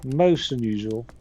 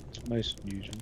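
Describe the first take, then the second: First: "most" said louder and rising, like a puzzled butler; hammed-up "Most unusual", louder, with "most" rising; mock-formal stress on "most". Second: Said in the usual way. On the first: Shown as a demonstration. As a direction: lean on "most" in a mock-grand way.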